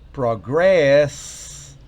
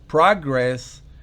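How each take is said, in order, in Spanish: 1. El acento está en la segunda sílaba. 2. El acento está en la primera sílaba. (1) "es progresar" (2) "estamos diciendo progreso"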